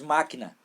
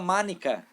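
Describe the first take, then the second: First: The second consonant is a k sound. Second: The second consonant is an n sound. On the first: An adult models the correct form back. The speaker calls it right. "diz máquina" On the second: A small child mispronounces the word. The speaker calls it wrong. "Ela fala mánica"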